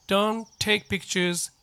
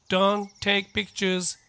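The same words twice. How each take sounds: The two takes are said the same way.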